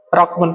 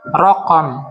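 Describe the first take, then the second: First: No vowel is said after the q. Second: A short vowel is said after the q. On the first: The speaker calls it right. "Pengucapan yang benar adalah raqmun" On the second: The speaker calls it wrong. "dengan memfathah huruf qaf. Itu keliru"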